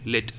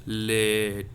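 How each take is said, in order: First: "Let" said quickly, the E gone at once; very short E. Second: "Let" stretched slowly to expose the hidden vowel; drawn-out E. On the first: Teacher shows how E disappears in "Let", vowel very short. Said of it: "E disappears very immedi". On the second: Teacher reveals the sound inside "Let", vowel drawn out. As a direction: hold the "e" long in "Let" before the t. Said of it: "That a sound is inside". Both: Shown as a demonstration.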